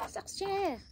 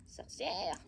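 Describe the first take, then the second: First: Much higher mock voice on Sorcière; Sorcière pitched way up in a teasing imitation; imitating Chabouli. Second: Said through a laugh; Sorcière breathed on a chuckle. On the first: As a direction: squeak Sorcière like a playful witch call. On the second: Real, not acted. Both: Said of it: "comme elle dit, Chabouli".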